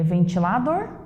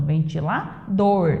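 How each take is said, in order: First: "ventilador" questioned with the accent moved off dor; shifted stress. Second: "ventilador" slow, landing hard on dor; correct final stress. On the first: Teacher tests a wrong stress on "ventilador", as a question. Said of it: "Tentem deslocar a sílaba tônica". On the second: Teacher corrects the wrong option, stressing dor in "ventilador". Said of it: "a sílaba tônica é o dor". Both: Shown as a demonstration.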